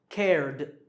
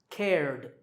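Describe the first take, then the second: The two takes are said the same way.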